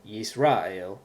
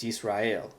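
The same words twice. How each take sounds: First: Yisrael as yees-RAH-el; wrong middle-syllable stress. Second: Yisrael as yees-rah-EL; stress on last syllable. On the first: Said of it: "not Israel or Yisrael". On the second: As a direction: land on the final EL of Yisrael. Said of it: "The accent is on the last syllable". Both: Shown as a demonstration.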